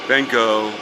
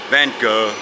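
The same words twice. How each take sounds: The two takes are said the same way.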